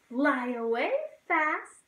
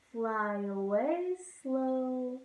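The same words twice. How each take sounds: First: Quick fly-away; fast. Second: Slow and drawn-out. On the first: Teacher sings the fast bird flying off. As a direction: zip through it. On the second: Teacher sings the slow bird flying off. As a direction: let it float away slowly. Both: Shown as a demonstration.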